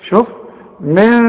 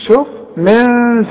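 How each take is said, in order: The two takes are said the same way.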